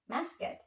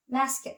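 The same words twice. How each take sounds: First: Masket for mask, vowel put into the cluster; masket, softer, as a learner says mask; added vowel. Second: Mask with S and K joined; mask, no vowel after the cluster; tight SK cluster. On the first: Student teacher imitating Indonesian learners saying mask, added vowel. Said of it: "they probably pronounce it like". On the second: Student teacher giving English cluster example mask, tight SK cluster. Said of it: "the S K T clusters". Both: Shown as a demonstration.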